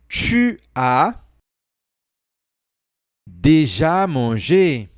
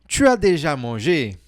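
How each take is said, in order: First: The sentence is said slowly and gently. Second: The sentence is said at normal speed.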